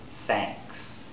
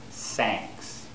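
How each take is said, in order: First: The word begins with an S sound. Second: The word begins with an S sound.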